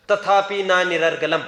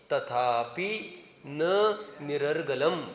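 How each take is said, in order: First: Slow, louder intoned quotation of the verse; Sanskrit recitation. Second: Very slow, softer intoning of तथापि न निरर्गलम; quiet recitation. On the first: Teacher quoting the scripture to his students, intoned loudly. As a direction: declaim the scripture line slowly. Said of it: "कौन बोल रहा है ये?". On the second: Teacher explaining the verse to the class, slow and soft. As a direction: draw out निरर्गलम slowly and gently. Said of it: "आत्मख्यातिकार ने स्पष्ट बोल दिया". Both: Shown as a demonstration.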